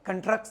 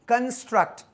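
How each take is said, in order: First: The s sound before the t is dropped. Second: The s sound before the t is kept. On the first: The speaker calls it wrong. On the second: The speaker calls it right.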